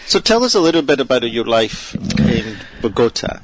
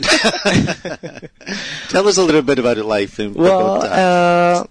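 First: It is said in the speaker's plain accent. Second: It is said in a Scottish accent.

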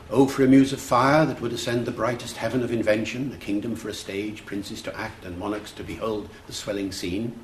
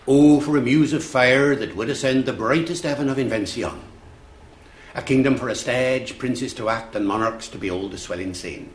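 First: It is said in a modern English accent. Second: It is said in Shakespearean original pronunciation.

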